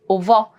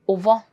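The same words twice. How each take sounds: First: The 're' syllable is left out. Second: The same.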